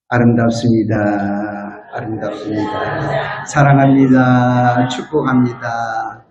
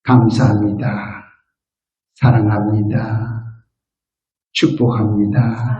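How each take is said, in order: First: Tender greeting. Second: Gentle blessing words. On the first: Congregation greeting the person beside them, slow and tender. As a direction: lower and gentle, words drawn out. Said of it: "옆 사람하고 인사합시다". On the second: Pastor teaching seniors their morning words, slow and tender. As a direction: lower and tender, each word savoured. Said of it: "세 마디만 하세요". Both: Shown as a demonstration.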